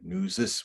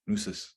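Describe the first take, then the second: First: The middle consonant is a buzzing Z sound. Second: The middle consonant is a hissing S sound. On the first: This is the regional form used in Minnesota. "In some areas in Minnesota, we say Nusis with a Z sound" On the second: This is the regional form used on the plains. "if you go to the plains, you'll hear it with an S"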